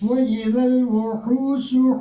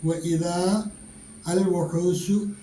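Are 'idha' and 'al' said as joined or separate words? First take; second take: joined; separate. First: Idha and al are joined, long vowel dropped. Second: Idha and al are said separately, long vowel kept. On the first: "ചേർത്ത് വായിക്കുമ്പോൾ" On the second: "എന്നാണുള്ളത്"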